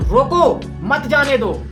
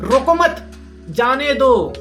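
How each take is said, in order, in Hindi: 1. विराम 'roko' के बाद है। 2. विराम 'mat' के बाद है। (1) "लेकिन अगर इस, इस लाइन में ऐसे बोलूं" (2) "मत पे मैंने फुल स्टॉप लगाया, कॉमा लगाया"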